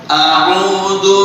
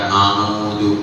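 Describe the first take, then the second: First: A throat consonant separates the two vowels. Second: Every sound is a plain open 'a' vowel. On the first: The speaker calls it right. "Itu ada patah alif" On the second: The speaker calls it wrong. "a semua a. Gak boleh"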